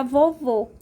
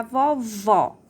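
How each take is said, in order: First: "vovô" with a closed ô, as in grandfather; "vovô" loud, ending on a tight ô; closed final vowel. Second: "vovó" with an open ó, as in grandmother; "vovó" slowly, ending on a wide ó; open final vowel. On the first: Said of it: "se eu colocar o acento circunflexo". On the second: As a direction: stretch the open, stressed VÓ in "vovó". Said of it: "se eu colocar o acento agudo". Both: Shown as a demonstration.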